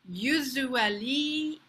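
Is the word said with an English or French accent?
French. The word is said with a French accent. "how a French person might say it"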